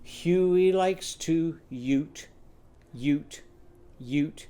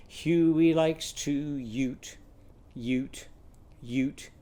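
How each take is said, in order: Both takes have the same delivery.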